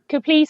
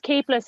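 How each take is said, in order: First: The name is said as Caplice. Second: The name is said as Capeless. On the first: This is a nickname version that sounds exotic. "Caplice has kind of become a bit of a nickname" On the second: This is the family's own grounded pronunciation. "my surname is Capeless"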